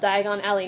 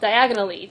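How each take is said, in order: First: It is said as two separate words. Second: It is said quickly as one word.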